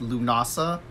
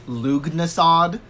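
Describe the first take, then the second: First: It is said without a g or final d. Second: It is said with a g and final d. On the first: The speaker calls it right. "It's pronounced Lunasa" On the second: The speaker calls it wrong. "I actually thought for a longest time it was pronounced Lugnasad, which it is not even pronounced that way"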